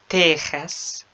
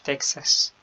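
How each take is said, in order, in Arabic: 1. الحرف الأوسط هو صوت kh حلقي. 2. الحرف الأوسط هو صوت ks. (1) "بالإسبانية تيخاس" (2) "مش تكساس"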